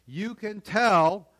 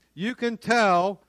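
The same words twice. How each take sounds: The two takes are said the same way.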